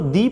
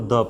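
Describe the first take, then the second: First: The vowel is a long 'ee' sound. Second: The vowel is a short 'uh' sound. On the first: The next word begins with a vowel sound. "इसको दी पढ़ा जाएगा" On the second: The next word begins with a consonant sound. "इसको द पढ़ा जाएगा"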